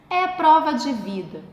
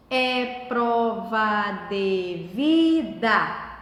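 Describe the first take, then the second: First: Said in the usual way. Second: "É prova de vida" very slow and low, each syllable drawn out separately. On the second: Shown as a demonstration. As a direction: chant out every syllable of "É prova de vida", lifting on "vi". ("É prova de vida" bem devagar, separando as sílabas) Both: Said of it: "Separar as sílabas".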